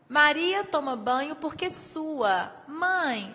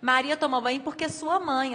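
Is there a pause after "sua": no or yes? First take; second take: yes; no. First: There is a pause after "sua". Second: There is no pause after "sua".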